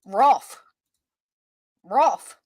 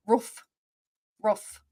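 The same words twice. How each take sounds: First: Roof with a short rounded vowel, said loud; imitating caller's roof. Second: Roof said with a long oo vowel; Roof, plain long oo like roof; Roof the standard way. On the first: Host mimics the caller saying Roof, loud. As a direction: stress Roof, ro-of clipped like the caller. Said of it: "the way she said roof". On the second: Shown as a demonstration. Host compares with the Western roof, plainly. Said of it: "Over roof as Western part".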